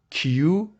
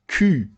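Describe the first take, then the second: First: The letter is said with its English sound. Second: The letter is said with its French sound. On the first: The speaker calls it wrong. "Don't say Q" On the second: The speaker calls it right. "Say Q"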